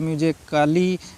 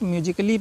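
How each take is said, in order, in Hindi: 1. 'ly' से पहले एक अतिरिक्त 'a' स्वर बोला जाता है। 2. 'ly' से पहले कोई स्वर नहीं बोला जाता। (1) "बहुत से विद्यार्थी ऐसे हैं जो इसको म्यूजिकली या म्यूजिकली ऐसे पढ़ते रहते हैं, तो ऐसे नहीं पढ़ना है" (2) "वो ए साइलेंट है, इसको डायरेक्ट म्यूजिकली पढ़ना है"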